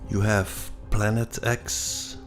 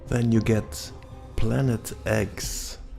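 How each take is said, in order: First: The X is said as the letter name ex. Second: The X is said like the word eggs.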